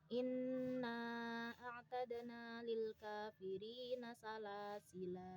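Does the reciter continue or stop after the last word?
stops. The reading stops at the final word. "Ketika dibaca waqaf"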